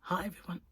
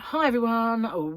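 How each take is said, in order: First: The greeting is said quietly. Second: The greeting is said loudly.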